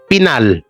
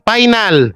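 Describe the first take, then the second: First: The word begins with a P sound. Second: The word begins with an F sound. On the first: The speaker calls it wrong. "Imbis na final, naging Pinal" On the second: The speaker calls it right. "F, F yun, hindi yung P"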